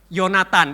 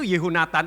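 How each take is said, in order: First: The name is shortened, with the 'ho' syllable dropped. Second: The full name is said with the 'ho' syllable. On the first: "ho-nya itu di, dihilangi, jadi langsung Yonatan" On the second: "tulisannya itu secara Ibrani itu Yehonatan"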